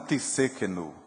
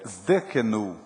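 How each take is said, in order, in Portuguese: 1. A palavra começa com uma sílaba 'tis'. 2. A palavra começa com um grupo consonantal 'zd'. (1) "Não existe a palavra Tissekenu" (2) "Zdekenu e não Tissekenu"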